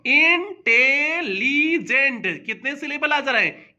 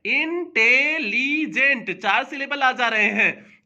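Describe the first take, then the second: First: इंटेलिजेंट drawn out slowly, syllable by syllable, then asked; syllable count question. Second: इंटेलिजेंट said slowly, syllable by syllable, with a settled falling answer; syllable count answer. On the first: Teacher asking students to count syllables in इंटेलिजेंट, slowly. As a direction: stretch इंटेलिजेंट into its syllables and ask. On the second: Teacher answering that इंटेलिजेंट has four syllables, slowly. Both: Shown as a demonstration. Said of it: "इसे जरा देखो".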